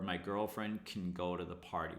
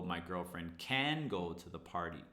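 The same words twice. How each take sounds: First: The word 'can' is weak and reduced. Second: The word 'can' is full and stressed. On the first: The speaker calls it right. "we reduce can. So it should be like this" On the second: The speaker calls it wrong. "We never go"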